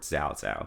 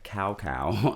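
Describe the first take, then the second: First: The syllables are said with Mandarin-style sounds. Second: Both syllables sound like the English word cow. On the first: This is the newer name used in recent games. "now he is called" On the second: This is the older name used in earlier games. "used to be called"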